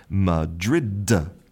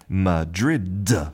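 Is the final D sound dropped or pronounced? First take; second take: pronounced; pronounced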